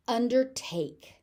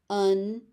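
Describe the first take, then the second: First: Said in the usual way. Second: "Undertake" split into un, der, take; teaching breakdown of "Undertake"; syllable by syllable. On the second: Shown as a demonstration. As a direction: pause between each syllable of "Undertake".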